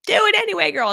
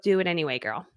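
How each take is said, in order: First: Put-on "Do it anyway, girl" belted higher and louder, "it" hit hard; punchy title. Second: Said in the usual way. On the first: Shown as a demonstration. Shouting her book title as a rallying cry.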